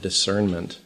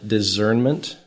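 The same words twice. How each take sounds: First: It is said with an S sound. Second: It is said with a Z sound. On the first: "I am pronouncing it with an S sound" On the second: "not the Z sound"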